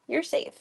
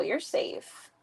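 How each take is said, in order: First: Said in the usual way. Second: Whispered reassurance. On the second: Real, not acted. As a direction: whisper "You're safe." softly to the scared cat. Soothing a scared cat.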